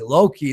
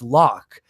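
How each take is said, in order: First: The name is said with two syllables. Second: The name is said with one syllable. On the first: The speaker calls it wrong. "Loki, no" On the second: The speaker calls it right. "it's Locke"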